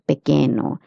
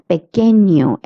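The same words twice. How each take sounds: First: The middle consonant is a plain n sound. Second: The middle consonant is a palatal ny sound. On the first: The speaker calls it wrong. "and not" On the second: The speaker calls it right. "N with the curly line, it is pronounced as nia"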